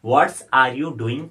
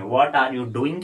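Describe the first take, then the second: First: "what's are you doing" with "what" ending in an S; better-sounding pronunciation. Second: Said in the usual way. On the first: Shown as a demonstration. Teacher offering a nicer-sounding option, "what's are you doing" pronounced with the added S. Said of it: "sound कर सकते हैं". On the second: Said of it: "के बदले आप".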